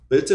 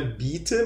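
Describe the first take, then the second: First: "bitte" with a short vowel sliding toward "bet-te"; I leaning to E. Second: "bitte" with a clear, pure I, "bee-te"; wrong pronunciation. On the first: Teacher showing the corrected word, i nearer to E. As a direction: let the i of "bitte" drop toward E. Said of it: "um som mais caindo um pouco pra um E". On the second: Teacher showing students the mistake, tight i in bitte. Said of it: "não é bitte". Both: Shown as a demonstration.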